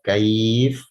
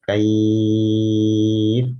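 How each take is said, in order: First: The long vowel is held for two counts. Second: The long vowel is held for six counts. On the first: "dua harokat" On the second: "enam harokat"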